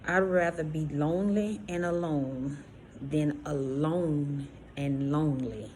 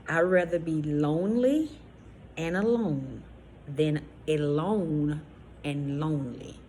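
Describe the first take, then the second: First: It is said at normal speed. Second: It is said slowly.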